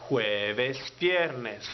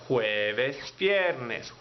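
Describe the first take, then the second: The two takes are said the same way.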